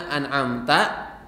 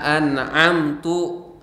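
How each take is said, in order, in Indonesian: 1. Kata itu diakhiri vokal 'a'. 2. Kata itu diakhiri vokal 'u'. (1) "harusnya an'amta" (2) "dia salah"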